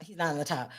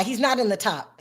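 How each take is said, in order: First: Dropped low and soft, muttered to self; soft, low repeat to herself; quiet aside. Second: Said in the usual way. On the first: Real, not acted. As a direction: say it again under your breath.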